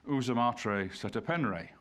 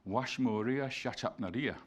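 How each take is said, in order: First: It starts with 'oo' and uses plain 'e' vowels. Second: It starts with 'wash' and uses 'sh' and 'a' sounds. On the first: This is the modern scholarly convention with guessed vowels. "we insert the letter E wherever we don't we don't know the actual value of a vowel" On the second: This is how the name actually sounded in ancient times. "It sounds like"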